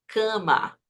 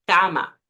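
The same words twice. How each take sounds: First: "cama" with a nasal first A; the Portuguese-style nasal "cama". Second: "cama" with an open oral A, vowel held. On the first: Teacher showing the nasal "cama" to avoid. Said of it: "no decimos cama". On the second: Teacher showing the correct open "cama". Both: Shown as a demonstration.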